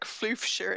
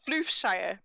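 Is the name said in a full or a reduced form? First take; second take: reduced; full. First: The name is said in a casual, reduced form. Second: The name is said in its full, careful form. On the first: This is how the speaker naturally says it. "But if I say it, it's just like Floofshire in it" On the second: This is how it looks when read. "when I read it, it's Floofshire"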